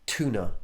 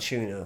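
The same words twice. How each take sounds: First: It is said in an American accent. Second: It is said in a British accent. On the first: "why do Americans say" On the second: "rather than"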